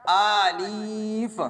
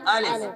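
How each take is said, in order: First: The first vowel is drawn out long. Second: The first vowel is kept short. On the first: The speaker calls it wrong. "गलत।" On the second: The speaker calls it right. "सही तरीका"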